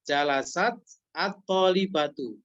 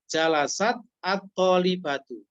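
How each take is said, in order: The two takes are said the same way.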